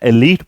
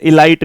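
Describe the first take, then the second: First: The second syllable rhymes with 'leet'. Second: The second syllable rhymes with 'light'. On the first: The speaker calls it right. "एलीट पढ़ा जाना है" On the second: The speaker calls it wrong. "इसे इलाइट नहीं पढ़ा जाना है"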